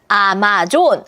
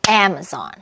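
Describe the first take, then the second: First: All syllables get even stress. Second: The stress is on the first syllable. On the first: The speaker calls it wrong. "아마존 아니고" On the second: The speaker calls it right. "강세는 다라라"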